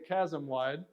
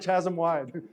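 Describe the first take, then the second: First: Chasm begins with a k sound. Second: Chasm begins with a ch sound. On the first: The speaker calls it right. "it's a chasm wide" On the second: The speaker calls it wrong. "it's not a chasm wide"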